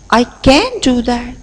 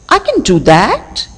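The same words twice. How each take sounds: First: The stress falls on the word can. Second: The stress falls on the word that. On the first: "If I lay stress on the second word, can" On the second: "if I lay stress on the last word, that is that"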